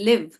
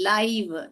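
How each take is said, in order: First: The vowel is short, like 'ih'. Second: The vowel is long, like 'eye'. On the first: It means to reside somewhere. "இங்க வந்து short sound சொல்லுது" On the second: It describes something broadcast as it happens. "ஐ வந்து அதோட பெயரை சொல்லுது"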